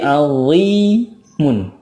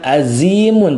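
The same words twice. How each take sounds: First: The z sound is thick and resonant. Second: The z sound is thin, not resonant. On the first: The speaker calls it right. "tapi azimun" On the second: The speaker calls it wrong. "bukan azimun"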